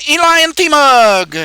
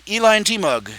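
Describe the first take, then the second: First: "Eli and T-Mug" slow and loud, "Eli" drawn out as e-ilai; careful name reading. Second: Said in the usual way. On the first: Shown as a demonstration. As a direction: spell out "Eli and T-Mug" slowly, each syllable loud. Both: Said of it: "I hope I'm pronouncing it right".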